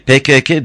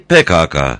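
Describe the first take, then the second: First: The K letters are said with an e vowel. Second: The K letters are said with an a vowel. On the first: This reflects a regional accent or an unexplained habit. The speaker calls it wrong. "ya bir şive sorunudur ya da K harfini benim bilmediğim bir nedenle K diye okuyorlar" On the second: This is how people commonly read it. The speaker calls it right. "PKK'yı PKK, ... diye okuyoruz"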